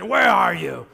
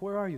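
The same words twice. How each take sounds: First: It is yelled angrily, like smashing things. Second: It is asked gently and calmly.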